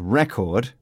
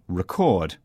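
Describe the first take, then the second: First: The stress is on the first syllable. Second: The stress is on the second syllable. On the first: The word is used as a noun. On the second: The word is used as a verb.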